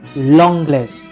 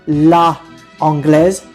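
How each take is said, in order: First: The vowel of la is dropped before anglaise. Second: The vowel of la is kept before anglaise. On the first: The speaker calls it right. "you would say l'anglaise. You remove the a from the la" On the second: The speaker calls it wrong. "instead of saying la anglaise"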